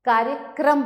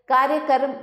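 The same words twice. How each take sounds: First: Said in the usual way. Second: कार्यक्रम ending in "karam"; louder कार्यक्रम, said "kaarya-karam"; wrong vowel order. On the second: Shown as a demonstration. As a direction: turn "kram" into "ka-ram" in कार्यक्रम. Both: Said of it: "कार्यक्रम होता है".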